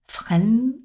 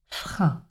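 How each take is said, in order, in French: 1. Le mot se termine par un son n net. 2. Le mot se termine uniquement sur une voyelle nasale. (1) "Attention à ne pas prononcer le N, le son N au masculin. Ne pas dire" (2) "c'est un son de voyelle nasale"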